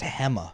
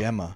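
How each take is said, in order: First: The name begins with an H sound. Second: The name begins with a G sound. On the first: "pronounce it with an H sound" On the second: "treating it like a real G"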